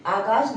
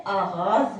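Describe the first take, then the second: First: आगाज ending in a hard j; wrong j ending. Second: आगाज with a throaty gh and final z; correct gh and z. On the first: Teacher shows the wrong ending, hard j. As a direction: say आगाज with j at the end. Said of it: "आगाज नहीं होता है". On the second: Teacher models the correct Urdu word, gh and z. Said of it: "सही लफ्ज़ जो है आगाज होता है". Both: Shown as a demonstration.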